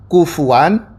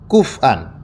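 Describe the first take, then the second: First: The f is followed by a u vowel. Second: The f has no vowel after it. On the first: "Yang pertama dibaca" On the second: "yang asalnya didomah menjadi disukunkan"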